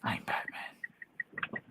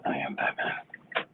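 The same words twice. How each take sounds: First: Slow whispered gravel Batman. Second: Slow hoarse whispered voice; no voice left, whisper it; raspy whisper. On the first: Pretend. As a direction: breathe it like Batman. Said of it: "host echoes Batman voice". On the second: Real, not acted. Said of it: "I have no voice".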